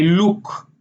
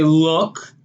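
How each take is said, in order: First: "look" as luuk, long tight oo; Israeli look with long oo. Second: Said in the usual way. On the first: Shown as a demonstration. Showing Israeli look with long oo. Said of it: "they say". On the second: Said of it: "we would say".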